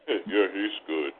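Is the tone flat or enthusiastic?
flat. It is said flatly, without enthusiasm.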